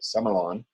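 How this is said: It is said the way Australians say it.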